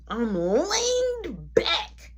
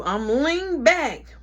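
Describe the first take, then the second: First: Stretched, slow "leaned"; very drawn out. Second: Said in the usual way. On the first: Shown as a demonstration. Man repeating his pose to the listeners, drawn out. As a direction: draw out "leaned" slowly, almost whining. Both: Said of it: "mind you".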